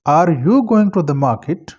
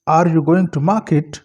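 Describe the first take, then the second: First: The word 'you' carries the main stress. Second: The word 'market' carries the main stress. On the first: There is surprise that this person is the one going. "अब stress यू पर है।" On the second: The focus is on the place being visited. "अब market पर stress है"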